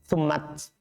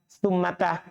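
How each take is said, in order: First: The word ends on a bare t sound. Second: The final t is followed by a short vowel. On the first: This form is rare. "kalau disukun ini sedikit" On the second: This is the usual form. "kalau sambung sama huruf dia berharokat"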